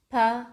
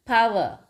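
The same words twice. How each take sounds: First: "power" in two parts, pa, wer; syllable break. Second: Said in the usual way. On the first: Shown as a demonstration. Teacher counting syllables for children, "power" broken in two. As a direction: clear pause mid-word in "power". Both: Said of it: "two syllables".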